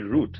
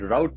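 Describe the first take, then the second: First: The word is said with a non-American pronunciation. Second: The word is said with an American pronunciation. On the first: "we say route" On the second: "that's how the Americans say it"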